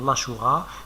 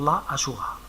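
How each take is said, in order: First: The article's vowel is dropped before the name. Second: The article's vowel is kept before the name. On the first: "je peux appliquer la règle, faire l'apostrophe" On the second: "on a la possibilité de garder la voyelle"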